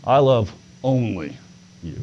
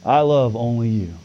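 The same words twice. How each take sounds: First: "I love only" then a pause before "you"; stress on you. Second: I love only you with the weight on "I"; first word "I" carries the stress. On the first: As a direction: hold back, then land on "you". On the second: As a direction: lean on "I", let the rest fall away. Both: Shown as a demonstration. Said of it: "I emphasized it a little bit different".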